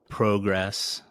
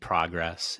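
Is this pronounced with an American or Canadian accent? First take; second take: Canadian; American. First: It is said with a Canadian accent. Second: It is said with an American accent.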